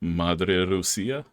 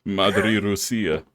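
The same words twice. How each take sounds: First: "Madre Rusia" drawn out slowly, rising on "Rusia"; slow questioning pronunciation. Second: "Madre Rusia" said slowly and firmly, stress on "Madre", falling; slow firm pronunciation. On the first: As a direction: test the phrase slowly, unsure. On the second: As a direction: model the phrase with certainty. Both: Shown as a demonstration. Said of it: "That's Mother Russia".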